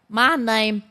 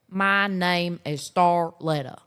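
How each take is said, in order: First: It is said in a strongly nasal voice. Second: It is said in a less nasal, country voice.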